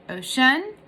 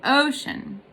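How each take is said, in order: First: "ocean" wrongly weighted on the final SHUN, as a question; stress on second syllable. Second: "ocean" with a long, strong O and a light ending; stress on first syllable. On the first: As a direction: push the last syllable of "ocean". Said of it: "or do you say ocean". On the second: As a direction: lean on the O of "ocean". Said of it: "So it's stressed". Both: Shown as a demonstration.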